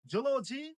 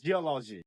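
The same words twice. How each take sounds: First: "zoology" as jo-lo-ji; j and rounded o opening "zoology"; common mispronunciation. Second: "geology" as ji-O-lo-ji; correct pronunciation. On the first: Teacher repeats what to avoid, "zoology" mispronounced as jo-lo-ji. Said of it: "this is not". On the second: Teacher repeats "geology" correctly as ji-O-lo-ji. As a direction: ji opening "geology", falling tune. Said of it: "this is geology". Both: Shown as a demonstration.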